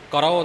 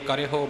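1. ਰ ਦੇ ਬਾਅਦ ਸਿੱਧਾ ਓ ਆਉਂਦਾ ਹੈ। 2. ਹੋ ਤੋਂ ਪਹਿਲਾਂ ਰ ਦੇ ਬਾਅਦ ਏ ਦੀ ਮਾਤਰਾ ਆਉਂਦੀ ਹੈ। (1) "ਕਰੋ ਨਹੀਂ ਬੋਲਣਾ" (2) "ਇਸ ਲਈ ਕਰੇ ਹੋ ਬੋਲਣਾ ਹੈ।"

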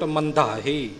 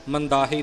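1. ਵਿਚਕਾਰਲਾ ਵਿਅੰਜਨ ਭਾਰਾ, ਭਾਰੀ dh ਹੈ। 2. ਵਿਚਕਾਰਲਾ ਵਿਅੰਜਨ ਹਲਕਾ, ਸਾਦਾ d ਹੈ। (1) "ਧੱਦੇ ਦੇ ਉੱਪਰ ਭਾਰ ਦੇਣਾ ਹੈ ਥੋੜ੍ਹਾ ਜਿਹਾ" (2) "ਨਹੀਂ ਬੋਲਣਾ"

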